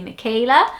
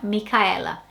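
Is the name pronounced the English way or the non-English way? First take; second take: English; non-English. First: The name has an English pronunciation. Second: The name has its original non-English pronunciation.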